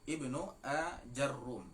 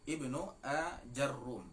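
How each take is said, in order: First: The vowel after the j is a. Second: The vowel after the j is a.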